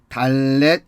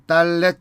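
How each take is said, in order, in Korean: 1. 첫 자음은 평음 d 소리입니다. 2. 첫 자음은 경음 dd 소리입니다. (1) "이것이 달렛이라고 한다면" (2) "이건 달렛 정도의 음가를 갖는 것이죠"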